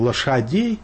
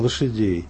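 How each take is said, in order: First: It uses the modern standard vowel after sh. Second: It uses the old Moscow vowel after sh. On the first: "мы говорим не «лошадей»" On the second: "а «лошадей». Такие точки этого старого московского произношения еще сохраняются"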